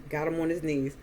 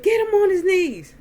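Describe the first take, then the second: First: Said in the usual way. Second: Imitating a bellowed command; barked order. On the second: Uncle ordering men to force the beaten man down, barking. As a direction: shout it high and loud. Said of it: "Earl just started barking orders".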